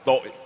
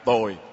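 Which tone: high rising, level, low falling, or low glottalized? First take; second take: low glottalized; low falling. First: The word is said with a low glottalized tone. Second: The word is said with a low falling tone. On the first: It means guilt. "thêm dấu nặng vào nó ra thành tội" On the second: It means bad. "dấu huyền thành ra tồi"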